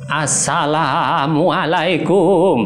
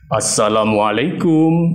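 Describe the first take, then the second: First: It is said in a trembling old person's voice. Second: It is said in a big, deep man's voice. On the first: "suara orang tua. ... Cukup menggetarkan suaranya" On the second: "kalau suara bapak-bapak, bisa dibesarkan suaranya"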